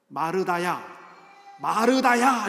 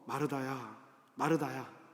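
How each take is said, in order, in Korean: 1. 짜증 섞인 말투로 이름을 부르고 있어요. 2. 다정한 말투로 이름을 부르고 있어요. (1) "짜증스럽게" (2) "사랑스럽게"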